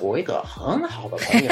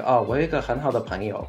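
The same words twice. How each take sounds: First: High, laughing mainland Mandarin intonation; 很好的朋友 with strong northern stress, pitched up; Beijing accent. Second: Quick, light Taiwanese Mandarin lilt; 我有一个很好的朋友 said fast and even, Taiwanese style; Taiwanese accent. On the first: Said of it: "somewhere in the mainland, you could say". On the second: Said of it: "Like in Taiwan, you might say, like". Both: Shown as a demonstration.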